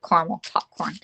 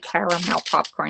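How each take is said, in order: First: Caramel is said short, with fewer syllables. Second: Caramel is said long, with every syllable drawn out. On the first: "I say caramel sauce, caramel popcorn" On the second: "It just sounds like you're drawing it all out"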